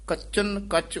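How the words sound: The n sound closes the first word. The speaker calls it right. "ਇਹ ਪਾਠ ਕੱਚਨ ਕੱਚ ਉਚਾਰਨ ਕਰਨਾ ਹੈ"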